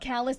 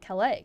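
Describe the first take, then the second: First: The name is pronounced in the local, non-French way. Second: The name is pronounced in the French way. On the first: The speaker calls it right. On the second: The speaker calls it wrong.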